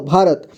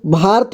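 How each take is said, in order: First: Said in the usual way. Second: "भारत" said as bhaart, with no vowel after र; clipped-vowel mispronunciation. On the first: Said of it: "र को पूरी तरह से उच्चारण किया जा रहा है". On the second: Shown as a demonstration. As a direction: drop the vowel of र in "भारत", running र straight into त. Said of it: "पूरी तरह से उच्चारण न करें तो इसको".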